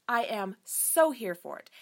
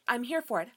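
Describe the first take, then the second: First: "so" drawn out and leaned on, slower; to her viewers, stretching the "so" for emphasis; stress on so. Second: Said in the usual way. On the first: Shown as a demonstration. Slow with a long, leaned-on "so".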